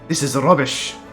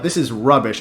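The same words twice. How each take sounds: First: It is said in a Scottish accent. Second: It is said in a plain everyday accent.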